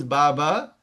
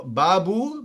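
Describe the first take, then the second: First: Baba ending on an open "ah"; stretched "baba", closing on "ah". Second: Babu ending on a long "oo"; stretched "babu", closing on "oo". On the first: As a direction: say "baba" with a clear final "ah" vowel. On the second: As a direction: say "babu" with a clear final "oo" vowel. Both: Shown as a demonstration. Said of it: "So babu becomes baba".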